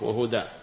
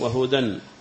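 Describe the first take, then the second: First: The word ends in a long a vowel. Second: The word ends in a short vowel and n. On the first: The word is said at a stop. "فلا تنطق بالألف إلا عند الوقف" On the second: The word runs on into the next. "أما عند الوصل وهدى فليس هناك ألف ينطق بها"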